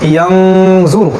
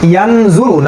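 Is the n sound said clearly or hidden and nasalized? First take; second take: nasalized; clear. First: The n sound is hidden with a nasal hum. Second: The n sound is said clearly and fully. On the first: The speaker calls it right. "আমরা পড়ছি ইয়াংজুরু" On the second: The speaker calls it wrong. "ইয়ানজুরু না পড়ে"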